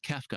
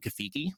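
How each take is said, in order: First: The name is said with two syllables. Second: The name is said with three syllables. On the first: The speaker calls it right. "oh, it's Kefka" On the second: The speaker calls it wrong. "I used to call him Kafiki"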